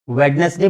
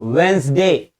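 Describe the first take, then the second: First: Every letter is sounded, including the middle 'd'. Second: The middle 'd' and 'e' are dropped: Wensday. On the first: The speaker calls it wrong. "वेडनेसडे बोलते हैं" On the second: The speaker calls it right. "वेंसडे, क्या बोलेंगे?"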